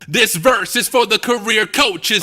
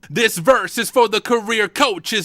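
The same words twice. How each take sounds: First: The voice is processed with studio effects. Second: The voice is dry, with no added effects. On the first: The speaker calls it right. "if we turn it all back on, it sounds amazing" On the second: The speaker calls it wrong. "let's turn all this off"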